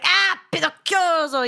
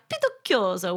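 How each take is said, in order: First: It is said with exasperated annoyance. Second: It is said plainly, without feeling.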